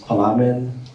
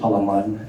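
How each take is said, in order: First: The last syllable sounds like 'man'. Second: The last syllable sounds like 'mun'. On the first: The speaker calls it wrong. "earlier it was pronounced as" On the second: The speaker calls it right. "it's actually Palaman, and with M U N pronunciation"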